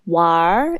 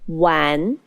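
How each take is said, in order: First: The word ends with an added R sound. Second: The word ends without any R sound. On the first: This is how northern speakers say it. "In northern China, people often say 玩" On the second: This is the form without the northern ending. "instead of 玩"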